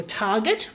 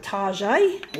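First: Said in the usual way. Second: "Target" said "Tar-zhay", French style, mocking; posh Tarzhay. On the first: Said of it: "Well, I call it Target". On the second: Shown as a demonstration. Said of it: "Target makes it sound a bit more posh".

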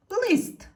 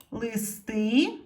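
First: Лист as one high, loud, falling syllable; stressed single vowel. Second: Листи with the final И stressed, rising; stress on last syllable. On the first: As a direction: punch the И in лист. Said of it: "стала наголошеною". (сильний наголос на И у слові лист) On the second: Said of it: "щоб не наголошена е стала наголошеною". (наголос на останнє И у слові Листи) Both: Shown as a demonstration.

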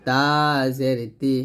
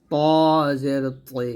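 First: তা জের তি, light dental t; thin ta. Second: প জের তৈ with প as heavy "taw"; thick taw. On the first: Teacher repeats for learners, thin তা. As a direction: say তা and তি thinly. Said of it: "তাটা পাতলা হবে". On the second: Teacher repeats the heavy letter, thick প. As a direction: fill the mouth on প and তৈ. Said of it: "পটা মোটা হবে". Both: Shown as a demonstration.

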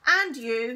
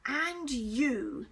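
First: Very loud stern accusation; loud condemning. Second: Menacing stern hiss. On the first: Teacher points at new boy, loudly condemning. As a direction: fire it at the next culprit. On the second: Teacher turns on Michael, hissing. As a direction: hiss it at the culprit. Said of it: "he hissed at Michael". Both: A narrator's reading.

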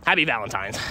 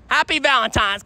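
First: Said in the usual way. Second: "Happy Valentine's" called out higher and louder; bright greeting. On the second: Real, not acted. Greeting bus stop strangers, "Happy Valentine's" raised and bright. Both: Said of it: "I gotta tell 'em Happy Valentine's".

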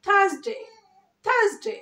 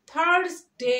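First: থার্সডে as "THAAZ-day", high and loud; smart pronunciation. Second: Slow "THARS-day", r sounded; wrong pronunciation. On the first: Teacher correcting learners, high r-less smart pronunciation. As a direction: punch it short with silent r and a z. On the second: Teacher showing what not to say, slow r-ful pronunciation. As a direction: stretch থার্সডে with r and s. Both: Shown as a demonstration. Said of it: "না কিন্তু".

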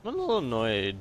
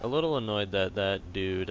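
First: Voice crack. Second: Said in the usual way. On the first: Real, not acted. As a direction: voice cracks on annoyed. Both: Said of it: "voice crack".

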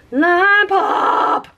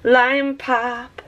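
First: Excited squeal. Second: Said in the usual way. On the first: Shown as a demonstration. Naming the color twice.

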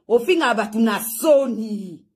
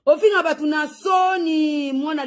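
First: Said in the usual way. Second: Slow, high shouted insult. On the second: Acted. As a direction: hurl it out slowly, shouting it. Repeated insult, second take shouted. (koganga makasi malembe)

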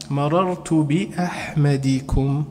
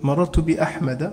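First: "بأحمدكم" drawn out slowly as bi-Ahmadi-kum; slow demo of "بأحمدكم" with kasra after the d; kasra before suffix. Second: "بأحمد" pronounced bi-Ahmada, with an open final vowel; fatha ending. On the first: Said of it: "وعلامة جره الكسرة". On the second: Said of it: "وعلامة جره الفتحة". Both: Shown as a demonstration.

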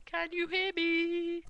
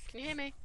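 First: Calling out. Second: Said in the usual way. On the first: Real, not acted. Checking if viewers can hear.

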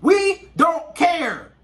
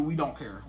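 First: Slow, loud "We don't care." with every word hit; emphatic shout. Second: Hushed earnest promise. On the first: Man stressing to the ladies watching, slow emphatic shout. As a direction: drag out "We don't care." in a raised, insistent shout. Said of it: "I cannot stress that enough". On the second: Man reassuring the ladies watching, quiet and low. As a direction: drop to a soft, low murmur for "we don't care.". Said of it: "I promise you". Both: Real, not acted.

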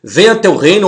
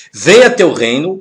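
First: Venha said higher and louder; stress on Venha. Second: Venha lifted with a rising end; stress on venha. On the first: Teacher repeating the line, Venha stressed higher. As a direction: hit Venha clearly for the class. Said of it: "ou pode ser reinado". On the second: Teacher reading the prayer line, venha stressed and rising. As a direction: lean on venha, let it rise. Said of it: "que tá entre parênteses". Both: Shown as a demonstration.

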